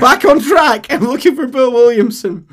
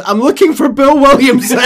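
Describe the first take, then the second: First: Very loud, high, insistent; John refusing to engage; blunt cowboy again. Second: Very loud, high deadpan repeat; John ignoring the speech; blunt cowboy. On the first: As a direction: repeat it flatly, back on task. John repeats, back on track. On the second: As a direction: cut him off bluntly. John ignoring captain, joking. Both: Acted.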